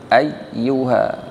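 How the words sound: The voice stops abruptly at the doubled consonant. The speaker calls it wrong. "Dibentak tapi tidak berhenti, jangan ayyuha"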